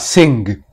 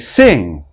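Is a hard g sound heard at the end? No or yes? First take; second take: Yes; No. First: It ends in the nasal sound plus a g. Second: It ends in the nasal sound with no g. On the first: The speaker calls it wrong. "not sing" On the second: The speaker calls it right. "We say sing"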